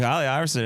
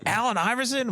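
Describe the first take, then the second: First: Said in the usual way. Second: High-pitched incredulous question; mock disbelief, voice shooting up high; retold astonishment. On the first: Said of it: "She's like". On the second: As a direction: imitate an uncle jolted out of a stupor. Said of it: "My uncle just came out of a drunk stupor".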